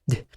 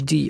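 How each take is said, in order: First: The consonant is said alone with no vowel. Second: The consonant is followed by an ee vowel. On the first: The speaker calls it right. "لا د د د" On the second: The speaker calls it wrong. "مش دي على كسر"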